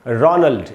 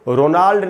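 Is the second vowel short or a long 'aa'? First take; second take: short; long aa. First: The second vowel is short and reduced. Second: The second vowel is a long 'aa' sound. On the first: The speaker calls it right. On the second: The speaker calls it wrong.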